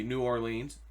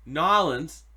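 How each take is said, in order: First: Said in the usual way. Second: "Nolans" run together as two syllables, NAW-lins, loud; local pronunciation. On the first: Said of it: "You don't just say New Orleans". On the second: Shown as a demonstration. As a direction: hit "Nolans" like a boss, local style. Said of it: "You gotta say it like a boss".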